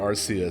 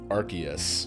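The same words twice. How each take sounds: First: The first syllable sounds like 'arse'. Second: The first syllable does not sound like 'arse'. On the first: This is the US pronunciation. "sounds like you're saying arse" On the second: This is the changed British English pronunciation. "the English English pronunciation"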